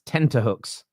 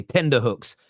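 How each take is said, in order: First: "tenterhooks" with T in place of D; corrected word. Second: "tender hooks" with D in place of T; London mispronunciation. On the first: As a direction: say "tenterhooks" with a clear middle T. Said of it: "Turns out it's tenterhooks". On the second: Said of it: "what everyone in London used to say". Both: Shown as a demonstration.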